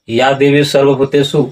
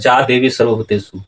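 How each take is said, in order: First: The first word begins with a y sound. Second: The first word begins with a j sound. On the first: The speaker calls it wrong. "इस तरह से अगर आप उच्चारण सुनते हैं या उच्चारण करते हैं तो ये गलत है।" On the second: The speaker calls it right. "वहां उच्चारण होगा जा देवी सर्वभूतेषु।"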